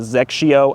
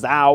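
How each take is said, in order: First: The name is said with three syllables, zeks-ee-oh. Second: The name is said with two syllables, zay-oh. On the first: The speaker calls it right. "that's actually how that ball is pronounced" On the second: The speaker calls it wrong. "I thought maybe it was Zao"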